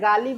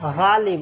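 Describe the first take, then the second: First: It begins with a plain hard g sound. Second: It begins with a throaty, rasping gh sound. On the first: The speaker calls it wrong. "इसको कहते हैं गालिब नहीं" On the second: The speaker calls it right. "ग के नीचे नुक्ता लगा हुआ है ... उर्दू वाला गालिब"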